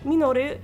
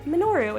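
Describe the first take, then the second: First: The name is said with a Japanese accent. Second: The name is said with an American accent. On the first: The name is said the way a native speaker would say it. The speaker calls it wrong. "that would have just been weird if we said it in a Japanese accent" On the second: The name is said the way the English voice actors say it. The speaker calls it right. "we said Minoru"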